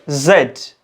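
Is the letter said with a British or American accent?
British. It is said the British way, as zed.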